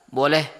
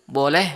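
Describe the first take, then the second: The two takes are said the same way.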